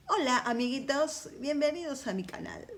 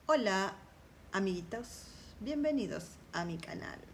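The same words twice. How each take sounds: First: Put-on high sing-song kid youtuber greeting; chirpy child welcoming viewers, pitched up; bright squeaky sing-song welcome. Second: Said in the usual way. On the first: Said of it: "Como dicen los nenes cuando intentan entrar a este universo". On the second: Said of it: "Como dicen los nenes".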